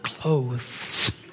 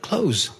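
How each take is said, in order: First: The word ends with a hissing s sound. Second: The word ends with a buzzing z sound. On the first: The speaker calls it wrong. "It's not clothes" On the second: The speaker calls it right. "Just think of Zorro or think of zebras"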